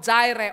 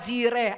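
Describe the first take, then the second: First: Jireh is said with a Western English pronunciation. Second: Jireh is said with a local Indonesian pronunciation.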